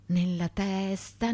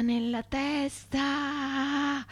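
First: Said in the usual way. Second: Higher, slow, drawn-out anguish; anguished cry. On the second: Acted. Milton fearing a shot to the head, slow anguished cry. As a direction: stretch it out like a dying plea. Fugitive's desperate thought.

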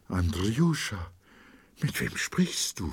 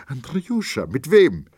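First: Wife, waking, asks her husband uneasily who he talks to; hesitant fearful question. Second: Much higher and louder, pressing hard on wem; wife insists, frightened, on who her husband speaks to; alarmed urgent question. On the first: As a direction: ask timidly, not yet sure what you see. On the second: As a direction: demand it now in rising fear. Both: A narrator's reading. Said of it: "voll Verwunderung und Furcht".

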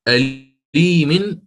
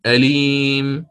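First: "أليم" very slowly, with the "-in" ending, rising; drawn-out "أليم" with the tanween sounded; "أليم" read in full, slow. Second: "أليم" slowly, cut on a silent ميم; "أليم" in pause form; pausal stop. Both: Shown as a demonstration. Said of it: "حركة هذا الحرف الأخير".

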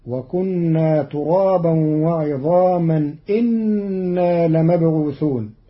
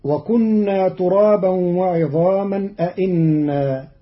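First: إنا said inna with the first hamza dropped, slow. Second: Said in the usual way. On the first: Shown as a demonstration. Teacher shows Qalun's إنا without the first hamza. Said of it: "بحذف الهمزة الأولى". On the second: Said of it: "قرأ قالون كلمة".

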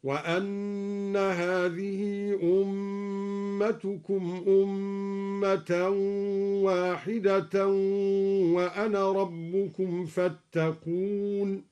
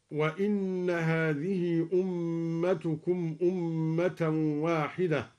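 First: وأن said wa-anna, slow chanted recitation; وأن with fatha, measured. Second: Said in the usual way. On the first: Shown as a demonstration. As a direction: chant slowly, opening the hamza of وأن. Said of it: "هكذا". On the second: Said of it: "بفتح الهمزة".

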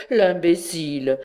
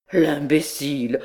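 First: A touch of laughter on it; chuckling at the fool; laughing scorn. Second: Lightly voiced scoffing; a hint of mocking disbelief; mild scorn. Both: A narrator's reading. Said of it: "un besoin de rire le saisit".

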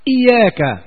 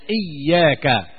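First: "إياك" said iyāka with a single ya; light ya, no shadda. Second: "إياك" said iyyāka with a doubled ya; kasra and shadda. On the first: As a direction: say "إياك" lightly, without doubling the ya. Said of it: "بالتخفيف بدون تشديد". ("إياك" بالتخفيف بدون تشديد) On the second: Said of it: "بكسر الهمزة". ("إياك" بالكسر والتشديد) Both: Shown as a demonstration.

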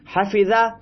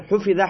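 First: حفظه said "hafiza", with a in the first syllable; active-form "ha-fi-za" for حفظه; active vowelling. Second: حفظه said "hufiza", with u in the first syllable; passive-form "hu-fi-za" for حفظه; passive vowelling. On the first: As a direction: open حفظه on a clear "ha". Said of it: "مانند حفظه". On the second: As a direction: open حفظه on a rounded "hu". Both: Shown as a demonstration.

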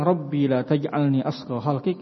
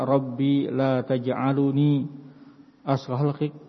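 First: Taj'alni with no vowel after the l; stopped l in taj'alni; correct jussive reading. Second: Taj'aluni with an added u after the l; extra u vowel in taj'aluni; wrong indicative reading. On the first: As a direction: say taj'alni with the l closed straight onto ni. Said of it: "ini sahih". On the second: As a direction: say taj'aluni, slowly, sounding lu before ni. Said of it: "Ini keliru". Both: Shown as a demonstration.

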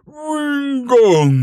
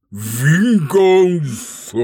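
First: High, loud, slow roaring cry; roaring dragon. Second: Slow, drawn-out, loud dragon snort. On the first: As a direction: roar it out like a furious dragon. Dragon roars the word back. (dragão rugindo furioso) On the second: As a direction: huff it out like an enraged dragon. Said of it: "bufou o dragão". (dragão bufando de desprezo) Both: Acted.

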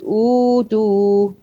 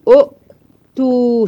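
First: أوتو with a long smooth uu, no stop inside; waw madd in أوتو. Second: أؤتو with short u cut by a glottal stop, higher and louder; difficult double hamza in أؤتو. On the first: Teacher showing the hamza turned to waw, أوتو with a held uu. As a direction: hold the opening vowel of أوتو, slow and unbroken. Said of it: "بدلنا الهمزة الساكنة التانية الواو". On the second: Teacher showing the strain on the tongue, أؤتو with a caught second hamza. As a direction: break أؤتو hard after the first u, slowly. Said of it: "شايفة الصعوبة على نطقك؟". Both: Shown as a demonstration.

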